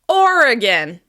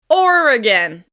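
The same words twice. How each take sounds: Both takes have the same delivery.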